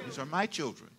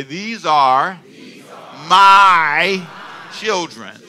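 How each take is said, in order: First: Said in the usual way. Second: Put-on "These are... my... children" with big pauses; slow and deliberate. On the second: Shown as a demonstration. Pastor leading congregation to repeat, slow emphatic "my". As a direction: boom a long, loud "my". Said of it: "Can you say it slow?".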